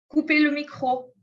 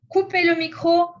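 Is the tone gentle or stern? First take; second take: gentle; stern. First: It is said softly and mildly. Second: It is said loudly and sharply. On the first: A polite request suited to the situation. The speaker calls it right. "Je ne suis pas très sévère" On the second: A strict command to the whole class. The speaker calls it wrong. "Je ne dis pas"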